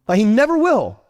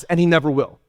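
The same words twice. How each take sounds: First: "never will" louder, with a falling "will"; emphatic repeat. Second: Said in the usual way. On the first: Shown as a demonstration. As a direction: hammer the point home on "will".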